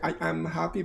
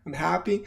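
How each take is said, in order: First: The verb is said in full, not contracted. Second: The verb is contracted onto the pronoun. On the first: The speaker calls it wrong. "I don't say" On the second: The speaker calls it right. "but I'm happy. ... usually the verb to be, you contract"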